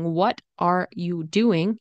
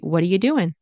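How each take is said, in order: First: The word doing ends with a full 'ing' sound. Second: The word doing ends with a short 'in' sound. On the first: "instead of saying" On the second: "And I said, in, doing, because it's already casual"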